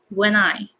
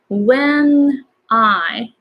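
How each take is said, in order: First: The n runs straight into the next word. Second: The two words are said separately.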